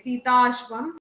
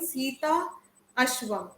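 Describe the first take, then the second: First: The two words run together into one sound. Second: The two words are split by a short pause. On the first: The speaker calls it right. "get in the flow and say" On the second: The speaker calls it wrong. "rather than saying"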